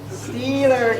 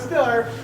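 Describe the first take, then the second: First: The first vowel is a long 'ee' sound. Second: The first vowel is a short 'i' sound. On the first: It is the standard pronunciation. "Steeler game" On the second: It is the local dialect pronunciation. "Not a Stiller. Not Ben Stiller"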